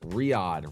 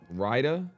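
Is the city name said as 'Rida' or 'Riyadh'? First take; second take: Riyadh; Rida. First: It is said like 'Riyadh', with the 'y' glide. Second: It is said like 'Rida', without the 'y' glide. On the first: The speaker calls it right. "Riyadh, excuse me" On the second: The speaker calls it wrong. "pronounced that wrong"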